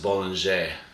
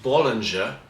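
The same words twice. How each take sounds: First: It is pronounced the French way. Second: It is pronounced the English way.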